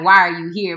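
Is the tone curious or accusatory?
accusatory. It is asked in a harsh, accusatory tone.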